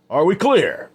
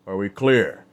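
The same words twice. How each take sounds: First: Much higher and louder, barking the question; loud repeated demand. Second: Said in the usual way. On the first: Acted. Adam repeats it to the men, a loud demand.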